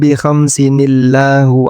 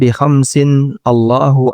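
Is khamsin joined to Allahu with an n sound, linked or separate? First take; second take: linked; separate. First: An n sound links khamsin straight into illahu. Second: Khamsin and Allahu are said as separate words. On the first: The Quran recitation rule applied to hadith text. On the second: The plain reading used for hadith text.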